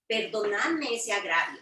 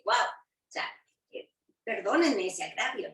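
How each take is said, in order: First: Said in the usual way. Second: Mock apology, a light ironic sting on perdónenme ese agravio; a touch of sarcasm, Guau breathed almost unvoiced; a bit sarcastic. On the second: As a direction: say perdónenme ese agravio as if the offense were a joke. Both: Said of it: "Un poco sarcásticamente les dice".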